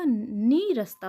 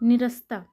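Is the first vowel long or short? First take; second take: long; short. First: The first vowel is a long 'ee'. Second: The first vowel is a short 'i'. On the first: The speaker calls it right. "दीर्घ ई की मात्रा होगी" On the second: The speaker calls it wrong. "अशुद्ध है"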